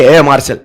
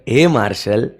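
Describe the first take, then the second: First: Angry call. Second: Softer and lower, a fond call of the name; lovingly. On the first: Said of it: "ऐसे गुस्से में नहीं". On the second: Teacher showing students how to call Marshall lovingly. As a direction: say it like a pet name, with affection. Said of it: "प्यार से बोलो". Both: Shown as a demonstration.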